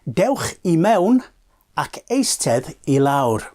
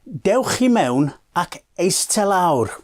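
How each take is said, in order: First: A short word is heard before lawr. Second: Eistedd runs straight into lawr, no short word. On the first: This is the full form of the phrase. "the phrase is" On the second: This is the everyday shortcut people use. "certain shortcuts that people use in everyday life"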